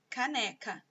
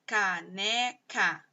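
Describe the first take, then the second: First: Said in the usual way. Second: "Caneca" slowly split into three drawn-out syllables. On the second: Shown as a demonstration. Teacher showing pupils the sounds in a word, "Caneca" syllable by syllable. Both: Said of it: "sílaba por sílaba".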